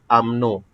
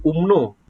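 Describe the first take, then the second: First: "umno" said as "am-no", English-style first vowel; accepted acronym pronunciation. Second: "umno" said as written, with an oo-like first vowel; spelled-out pronunciation, not used. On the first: Teacher modelling the accepted reading, "umno" as "am-no". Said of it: "Ya, kita akan sebut umno". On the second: Teacher showing students the reading to avoid, "umno" as spelt. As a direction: say "umno" letter for letter as "oom-no". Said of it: "So, kita tak sebut umno". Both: Shown as a demonstration.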